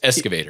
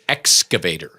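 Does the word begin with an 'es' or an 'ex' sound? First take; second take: es sound; ex sound. First: The word begins with an 'es' sound. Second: The word begins with an 'ex' sound. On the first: The speaker calls it wrong. "like with an S" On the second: The speaker calls it right. "no, it's an excavator"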